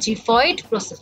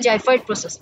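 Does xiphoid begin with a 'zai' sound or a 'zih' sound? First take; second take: zih; zai. First: The first syllable is said like 'zih'. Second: The first syllable is said like 'zai'. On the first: "এটা হচ্ছে জিফয়েড process" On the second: "অনেকে বলে জাইফয়েড process"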